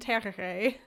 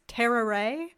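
First: The R sounds are attempted as tapped Spanish R's. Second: The R sounds are strong American R's. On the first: "the word I just tried to say is" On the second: "if I say it with like super American R's"

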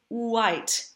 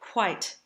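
First: The W at the start is voiced. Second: The W at the start is breathy and unvoiced.

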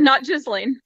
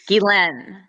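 First: The name ends with a 'lane' sound. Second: The name sounds like 'ghee' plus 'len'. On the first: The speaker calls it wrong. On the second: The speaker calls it right. "imagine like ghee, like the butter, and Len"

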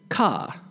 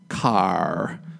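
First: The final R sound is weak or dropped. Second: The final R sound is strongly pronounced. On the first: "British English, we would say car" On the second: "But the American R is very strong. So American English would be car"

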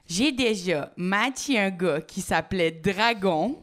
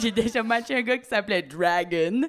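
First: Dragon is said with a French accent. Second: Dragon is said with an English accent.

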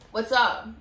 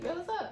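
First: It sounds harsh and confrontational. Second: It sounds casual and friendly.

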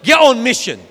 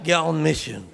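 First: The phrase is said with strong, forceful energy. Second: The phrase is said with weak, flat energy. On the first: The speaker means it seriously. The speaker calls it right. "say it like you mean it, because mission is a serious word" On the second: The speaker does not really mean it. The speaker calls it wrong. "We can't be like, get on mission. You're not even saying it with mission"

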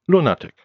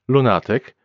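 First: The stress is on the first syllable. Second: The stress is on the second syllable. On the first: "and the first syllable in English" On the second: "the stress on the second syllable in Polish"

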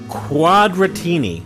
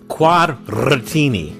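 First: It is said plainly, without an Italian accent. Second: It is said with an Italian accent, rolled R.

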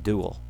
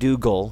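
First: The G is breathed past, soft and airy. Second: The G is pronounced as a hard stop. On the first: The speaker calls it right. "but you kind of breathe past it" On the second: The speaker calls it wrong. "not Dougal, where you hit that G nice and hard"

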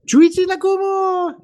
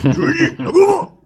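First: It is said in a girlish, teenage voice. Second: It is said in a gruff salaryman voice.

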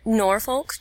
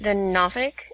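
First: It uses the common outsider pronunciation. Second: It uses the local Virginia pronunciation. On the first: This is how people from elsewhere say it. "or Norfolk, to you non-Hampton Roadsers out there" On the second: This is how people from the area say it. "it's the Norfolk"

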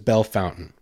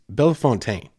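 First: The second word is said like English fountain. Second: The second word is said the French way, fontaine. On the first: This is how everyone locally says it. The speaker calls it wrong. "Everyone says Belle Fountain" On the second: This is the original French way of saying it. The speaker calls it right. "It's Belle Fontaine"

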